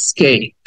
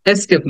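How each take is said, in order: First: স্কেপ as "is-KAYP", short i start; correct escape. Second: এস্কেপ with an open "es" start; mispronounced escape. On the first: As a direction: model স্কেপ with a light i and falling "kayp". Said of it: "উচ্চারণ হবে". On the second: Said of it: "এস্কেপ না". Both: Shown as a demonstration.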